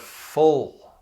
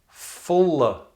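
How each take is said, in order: First: The word ends in a held L. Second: The word ends in a vowel sound. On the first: The speaker calls it right. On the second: The speaker calls it wrong.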